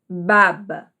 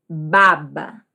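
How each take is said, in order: Both takes have the same delivery.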